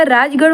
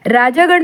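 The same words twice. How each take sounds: First: Said in the usual way. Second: राजागण with long -jaa; wrong form. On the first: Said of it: "राजगण होता है". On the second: Shown as a demonstration. Teacher rejects a misspelling, राजागण with long middle aa. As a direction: hold aa after j in राजागण. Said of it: "राजागण नहीं होता".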